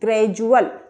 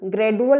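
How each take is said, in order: First: The middle consonant is a j sound. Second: The middle consonant is a plain d sound. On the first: The speaker calls it right. "सही उच्चारण क्या होगा?" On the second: The speaker calls it wrong. "इसे हम ग्रेडुअल नहीं पढ़ेंगे, ग्रेडुअल गलत हो जाएगा।"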